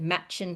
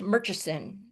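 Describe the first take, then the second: First: The name is shortened to two syllables. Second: The name is said with three full syllables. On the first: This is how local people say it. "you'll hear all of the locals pronounce it Matchin Falls" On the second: This is how the spelling suggests it is said. "it looks like it might be pronounced Murchison"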